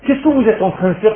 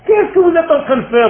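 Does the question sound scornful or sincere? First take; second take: sincere; scornful. First: The question is asked in a sincere, curious tone. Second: The question is asked in a scornful, dismissive tone. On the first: The asker genuinely wants to learn what they are doing. The speaker calls it wrong. "C'est pas apprenez-moi, j'ai envie de savoir" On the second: The asker thinks what they are doing is nonsense and wants no part in it. The speaker calls it right. "je vais te le faire avec l'intonation. ... Vous voyez pas que c'est du n'importe quoi"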